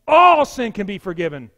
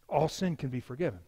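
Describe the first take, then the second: First: Loud, ringing declaration; emphatic proclamation. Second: Soft, low statement; understated. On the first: Preacher declares forgiveness to his congregation, loud and emphatic. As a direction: proclaim it loudly to everyone. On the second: Preacher gently offers his congregation forgiveness, understated. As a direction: say it quietly, holding back. Preacher repeats line for emphasis. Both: Real, not acted.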